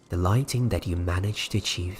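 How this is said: It is read in a put-on narrator voice.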